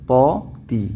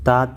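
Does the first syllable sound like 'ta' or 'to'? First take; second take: to; ta. First: The first syllable sounds like 'to'. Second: The first syllable sounds like 'ta'. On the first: The speaker calls it right. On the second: The speaker calls it wrong.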